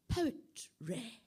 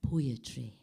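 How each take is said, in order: First: Poetry said posh as "Pow-tray", rising. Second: Said in the usual way. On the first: Shown as a demonstration. Reader shows the posh pronunciation of Poetry. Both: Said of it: "pronounced O".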